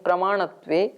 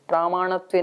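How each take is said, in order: First: The first vowel is short, prama-. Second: The first vowel is long, pramaa-. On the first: The speaker calls it right. "इसको आ की मात्रा को हटा लीजिए" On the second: The speaker calls it wrong. "प्रामाणत्वे नहीं"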